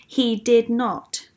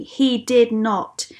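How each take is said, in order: First: Slow, deliberate denial; firm. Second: Slow, weighty denial; firm and deliberate, each word landing. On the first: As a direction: repeat the refusal firmly, unhurried. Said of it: "Jesus said again". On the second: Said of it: "said Jesus firmly". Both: A narrator's reading.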